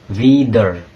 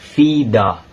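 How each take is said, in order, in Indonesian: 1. Akhirannya diucapkan dengan bunyi 'r'. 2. Akhirannya diucapkan seperti bunyi 'a'. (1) "bukan wieder" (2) "tapi but vida"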